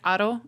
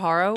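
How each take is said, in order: First: The name is said with a Spanish pronunciation. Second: The name is said with an American pronunciation. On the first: "it's like Aro in Spanish" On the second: "I say [name] when I'm in America"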